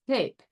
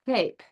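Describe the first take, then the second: First: The word starts with a slushy, lisped S sound. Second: The same.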